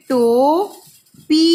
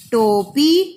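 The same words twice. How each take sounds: First: Drawn-out sounding. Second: Said in the usual way. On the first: Shown as a demonstration. Teacher sounding out टोपी slowly for pupils. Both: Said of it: "देखिए टोपी कैसे लिखेंगे".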